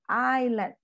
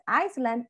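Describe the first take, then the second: First: The word is said with no s sound. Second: The word is said with an s sound. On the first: The speaker calls it right. "the pronunciation is island. We have to forget about this" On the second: The speaker calls it wrong. "If you say it with the S"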